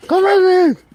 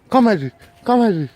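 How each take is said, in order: First: High, loud call, name stretched out; insistent high shout; shouted dog call. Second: Loud, short call; firm call at usual pitch; calling a dog. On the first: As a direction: holler for the dog to come. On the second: Calling a dog, first try. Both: Real, not acted.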